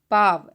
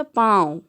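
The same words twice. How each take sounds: First: Said in the usual way. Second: पाँव said louder with a nasalized aa; nasal vowel, stressed. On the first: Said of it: "और जब चंद्रबिंदु लग गया". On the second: Shown as a demonstration. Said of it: "दोनों का उच्चारण जो है वो अलग अलग है". (पाँव ज़ोर से, आ नाक से बोलें)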